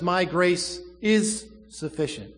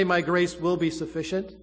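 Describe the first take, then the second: First: "My grace is sufficient" slow, leaning hard on "is"; stress on is. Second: "My grace will be sufficient" with will be rising; stress on will be. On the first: Preacher stressing present tense, slow weight on is. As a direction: land "is" as present fact. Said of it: "Right now, present tense". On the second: Preacher contrasting tenses, stress on will be. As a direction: lean on "will be" as the wrong tense. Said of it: "He doesn't say". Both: Shown as a demonstration.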